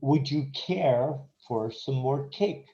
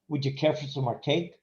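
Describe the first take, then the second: First: The question is said slowly and fully. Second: The question is said quickly with a reduced "for".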